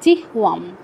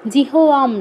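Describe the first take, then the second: First: The h is said reduced, with no vowel after it. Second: The h is said fully, with a vowel after it. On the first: The speaker calls it right. "অর্ধ হ পাচ্ছি" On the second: The speaker calls it wrong. "হয়ের পূর্ণ উচ্চারণ করা যাবে না। জিহোয়াম নয়"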